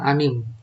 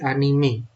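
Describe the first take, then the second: First: The word ends on the m sound. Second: The word ends with a final e vowel. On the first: The speaker calls it wrong. "bukan anim" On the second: The speaker calls it right. "tapi anime ya, karena dengan ejaan Jepang"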